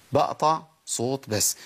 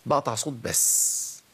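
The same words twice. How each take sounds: The two takes are said the same way.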